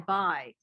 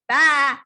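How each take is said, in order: First: It is said in a plain, ordinary voice. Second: It is said in a bleating, sheep-like voice.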